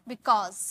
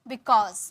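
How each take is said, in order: The two takes are said the same way.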